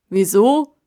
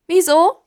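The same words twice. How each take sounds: First: Tiefe, laute Baumstimme; alter Baum. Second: Hohe, laute Krähenfrage; arglose Krähe. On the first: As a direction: ratlos zurückfragen. Kasta wiederholt stockend. (tiefe Stimme des Baums) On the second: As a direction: arglos hoch nachfragen. (helle Krähenstimme) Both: Acted.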